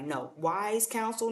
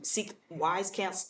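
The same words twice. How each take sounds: First: Wise counsel said very slowly, wise leaned on; correcting herself by stressing wise. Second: Wise drawn out slowly and leaned on; slow down and weigh the word wise; stress on wise. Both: Shown as a demonstration. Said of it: "emphasis on wise".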